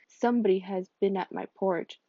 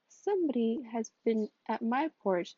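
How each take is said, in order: First: It is said in a deep, gruff voice. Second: It is said in a medium voice.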